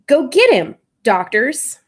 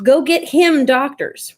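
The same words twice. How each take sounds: First: There is a pause before 'doctors'. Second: The words run together with no pause. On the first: The words are split into two parts. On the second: The words form one unit.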